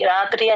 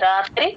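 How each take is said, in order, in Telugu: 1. హల్లులు కలపకుండా సాధారణంగా పలకబడతాయి. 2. హల్లులు ఒకే మృదువైన గుంపుగా కలిపి పలకబడతాయి. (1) "ప్లెయిన్ గా కాకుండా" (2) "రాకి తాని జాయిన్ చేసి చెప్పాలి"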